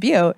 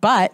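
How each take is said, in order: First: The name sounds like the word 'beaut'. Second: The name sounds like the word 'butt'. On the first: The speaker calls it right. "it's Butte" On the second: The speaker calls it wrong. "people call it Butt"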